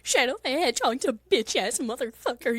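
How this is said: The voice wavers with a strong vibrato. "say shit in the vibrato voice"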